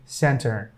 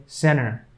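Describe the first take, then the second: First: "center" with a clearly sounded T; careful T. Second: "center" said as "cenner", T dropped; American silent T. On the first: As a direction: pronounce the T in "center". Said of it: "We, we say center". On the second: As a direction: drop the T in "center", American style. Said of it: "they keep that T silent". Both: Shown as a demonstration.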